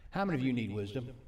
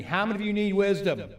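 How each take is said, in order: First: Said in the usual way. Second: Loud, high call to the congregation; insistent louder repeat. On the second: Real, not acted. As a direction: raise your voice to rouse an unresponsive crowd. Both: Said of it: "You're not hearing me".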